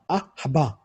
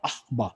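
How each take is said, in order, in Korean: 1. 중간 자음 뒤에 아주 짧은 모음이 붙어요. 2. 중간 자음 뒤에 모음이 없어요. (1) "스쳐 지나가는 발음" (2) "묵음 쉐바가 돼서 악, 악바라고 발음해야 되는데"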